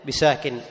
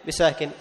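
No difference in how they are said.

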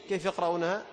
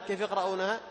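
No difference in how they are said.

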